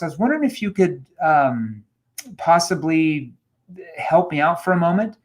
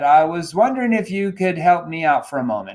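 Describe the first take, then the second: First: It sounds hesitant, confused and natural. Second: It sounds smooth, rehearsed and scripted. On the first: The caller genuinely needs a little help. The speaker calls it right. "It has to sound natural" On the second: The caller is trying to sell something. The speaker calls it wrong. "If you sound scripted"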